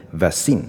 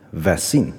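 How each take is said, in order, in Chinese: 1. 重音在第二个音节上。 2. 重音在第二个音节上。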